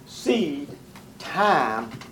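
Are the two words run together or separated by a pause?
separated. A pause separates the two words. Time is its own separate stage. The speaker calls it right. "People say this too fast and don't get it right"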